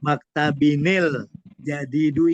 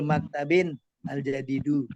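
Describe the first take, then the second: First: The nunation runs straight into the article as 'nil'. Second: The nunation ends separately before a clear 'al'. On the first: This is the Quranic reading. "kalau di bahasa Al-Quran maktabinil jadidu" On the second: This is the ordinary modern reading. "kebanyakan dia tidak disambung"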